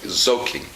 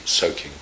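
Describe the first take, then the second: First: "soaking" begun with a buzzing z; German Z for S. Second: "soaking" begun with an unvoiced English s; plain s at the start of "soaking"; correct S. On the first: Teacher imitating the German slip, "soaking" with initial z. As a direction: voice the first sound, soaking as "zoking". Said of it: "Germans often say Z instead of S". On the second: Teacher correcting the German slip, "soaking" with clear s. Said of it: "Z instead of S". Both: Shown as a demonstration.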